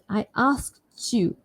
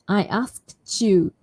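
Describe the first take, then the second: First: The t and y merge into a ch sound. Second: The t and y merge into a ch sound.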